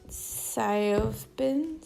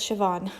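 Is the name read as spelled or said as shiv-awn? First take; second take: as spelled; shiv-awn. First: The name is sounded out from its spelling. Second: The name sounds like shiv-awn. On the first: The speaker calls it wrong. "every single time that I see it on paper, I'm like" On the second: The speaker calls it right. "Oh no, this is the one that's Siobhan"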